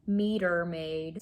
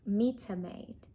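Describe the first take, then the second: First: It is said in an American accent. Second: It is said in a British accent. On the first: "with my American accent" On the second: "That's how they say"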